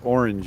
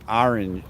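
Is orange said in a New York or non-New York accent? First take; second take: non-New York; New York. First: It is said without a New York accent. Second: It is said with a New York accent. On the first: "you don't say orange" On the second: "if you live in New York, you say orange"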